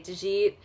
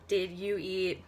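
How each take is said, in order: First: The words are run together into one syllable. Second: The words are said separately and fully.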